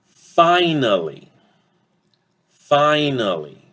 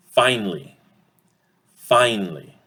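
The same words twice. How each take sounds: First: "finally" slow and high in three syllables; full pronunciation. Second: "finally" in two syllables, FINE-lee; reduced pronunciation. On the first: Teacher asks which vowel reduces, "finally" slowly as FI-nuh-lee. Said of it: "Guess which vowel will get reduced?". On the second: Teacher shows the uh disappearing, "finally" as FINE-lee. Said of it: "will disappear". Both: Shown as a demonstration.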